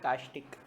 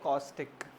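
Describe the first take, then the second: First: The first vowel is an open 'ah' sound. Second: The first vowel is a rounded 'aw' sound. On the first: This is a local, changed form of the word. "Change हो गए कास्टिक" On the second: This is the usual form of the word. "हमारे यहाँ पे word है कॉस्टिक"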